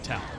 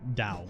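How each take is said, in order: First: The name begins with a T sound. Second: The name begins with a D sound. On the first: This is how the person himself says it. "I think he pronounces it Tao" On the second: This is the technically correct form. "even though it's technically Dao"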